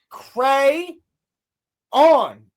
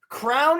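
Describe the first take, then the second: First: It is said as two syllables, 'cray on'. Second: It is said as one syllable, like 'crown'. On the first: The speaker calls it right. "It's two words" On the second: The speaker calls it wrong.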